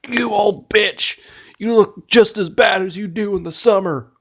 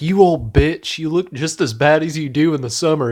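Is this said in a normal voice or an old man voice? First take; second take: old man; normal. First: It is said in a put-on old man voice. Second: It is said in an ordinary, natural voice.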